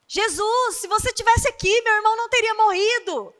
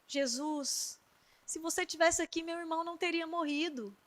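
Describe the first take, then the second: First: High, loud and quick, rushing to reproach Jesus; hurried complaint. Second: Much softer, hushed and broken with grief; tearful plea. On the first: Marta, hurried and reproachful, speaks to Jesus high and loud. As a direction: Marta rushes out, voice raised in urgent reproach. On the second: Maria, weeping at Jesus' feet, pleads in a hushed voice. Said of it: "começou a chorar". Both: Acted.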